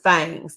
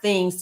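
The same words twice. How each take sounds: First: The vowel is an open a sound. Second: The vowel is a short i sound. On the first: "but things, T H A N G S" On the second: "Not things, T H I N G S"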